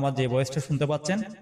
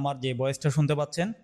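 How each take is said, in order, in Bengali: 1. ভয়েসটি theatre মোডে record করা হয়েছে। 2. ভয়েসটি নর্মাল মোডে রেকর্ড করা হয়েছে। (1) "এটা হচ্ছে থিয়েটার মোডের ভয়েস" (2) "এটা হচ্ছে নর্মাল মোডের ভয়েস"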